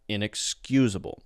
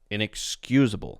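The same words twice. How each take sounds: First: It flows smoothly with reduced, weak vowels. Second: The same.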